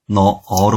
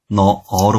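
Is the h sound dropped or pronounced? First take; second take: dropped; dropped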